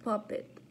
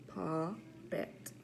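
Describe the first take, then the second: First: Said in the usual way. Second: Puppet split into pup-pet with a gap; syllable by syllable. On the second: Shown as a demonstration. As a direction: count out two beats in Puppet. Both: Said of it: "practice our counting syllables".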